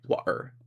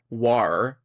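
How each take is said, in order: First: The T is replaced by a glottal stop. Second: The T sound is dropped entirely. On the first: The speaker calls it right. "T glottalization" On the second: The speaker calls it wrong. "they're not saying war"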